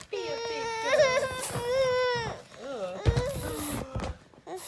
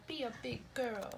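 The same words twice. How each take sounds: First: High, slow wailing mock cry of "big girl"; hammed-up whiny cry at the baby. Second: Said in the usual way. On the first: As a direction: stretch out "Be a big girl" like a fake sob.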